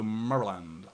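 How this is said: The syllables are mumbled together, American style. This is how locals in the USA say it. "you sort of like mumble it a little bit"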